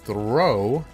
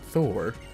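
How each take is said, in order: First: An r sound follows the th, rhyming with 'go'. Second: A plain th sound, rhyming with 'more'. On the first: The speaker calls it right. "there's actually an R in there" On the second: The speaker calls it wrong. "not Thor"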